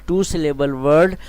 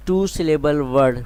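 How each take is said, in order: Both takes have the same delivery.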